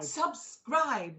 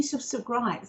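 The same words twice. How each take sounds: First: "Subscribe" said carefully as two clean syllables; careful correct retry. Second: "subscribe" tripped over with a doubled first syllable; tongue-tied stumble. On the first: Host retrying a word she fumbled, careful "Subscribe". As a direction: get "Subscribe" out cleanly, sub then scribe. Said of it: "I still can't say". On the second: Telling viewers to join YouTube, tongue-tied on "subscribe". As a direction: stumble on "subscribe", repeating the "sub". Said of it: "put my teeth in". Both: Real, not acted.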